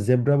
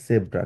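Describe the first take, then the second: First: জেব্রা with a voiced z, "zebra"; usual Bengali pronunciation. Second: জেব্রা with s for z, "sebra"; German pronunciation. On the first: Teacher showing how Bengali speakers usually say it, জেব্রা as "zebra". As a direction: say জেব্রা starting on a buzzing z. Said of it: "সাধারণত আমরা জেব্রা বলি". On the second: Teacher contrasting German with Bengali and English, জেব্রা as "sebra". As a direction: say জেব্রা starting on an s, not z. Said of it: "জার্মানে এটাকে বলা হচ্ছে জেব্রা". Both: Shown as a demonstration.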